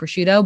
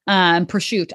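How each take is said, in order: First: It is said with a Midwestern American pronunciation. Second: It is said with an Italian pronunciation. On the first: "we're in the Midwest, so it's mozzarella and prosciutto" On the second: "I feel stupid saying it that way"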